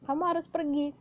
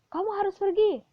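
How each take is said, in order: First: It is said flat, without intonation. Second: It is said with a commanding intonation.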